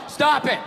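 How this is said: It is said flatly, like reading aloud.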